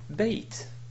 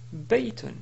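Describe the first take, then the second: First: The word ends abruptly on the 't' sound. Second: The word ends with a full 'un' sound. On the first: "d'une manière simple en disant bayt" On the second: "ce mot ici se prononce baytun"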